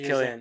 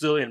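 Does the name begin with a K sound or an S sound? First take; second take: K sound; S sound. First: The name begins with a K sound. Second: The name begins with an S sound. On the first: The speaker calls it right. "it's pronounced Killian" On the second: The speaker calls it wrong. "I thought people were pronouncing it silly"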